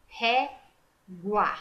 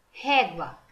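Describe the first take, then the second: First: "Régua" split slowly into ré and gua, U sounded; "Régua" in two separated syllables. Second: Said in the usual way. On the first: Shown as a demonstration. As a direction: break "Régua" before a clear gwa.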